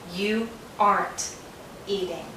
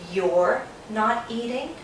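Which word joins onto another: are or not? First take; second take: not; are. First: The word not is shortened onto are. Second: The word are is shortened onto you. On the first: "Sometimes Americans say you aren't eating. We take are, not, aren't" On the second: "Sometimes Americans say you're not eating"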